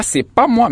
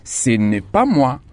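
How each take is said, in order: First: Higher, mocking the common mistake «c'est pas moi»; wrong form quoted. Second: Slow, with «n'est» said fully and clearly; correct form, careful. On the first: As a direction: toss off «c'est pas moi» pitched up as the error to avoid. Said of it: "on dit pas". (forme fautive, plus aiguë, un peu moqueuse) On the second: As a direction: spell out «ce n'est pas moi» slowly, leaning on «n'est». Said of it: "mais on dit". (lentement, en détachant bien «n'est») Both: Shown as a demonstration.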